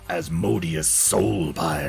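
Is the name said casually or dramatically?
dramatically. The name is said in a grand, dramatic voice. The speaker calls it right. "I feel like you have to say it like that"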